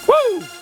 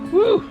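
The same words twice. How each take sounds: First: It is said with high energy. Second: It is said with low energy.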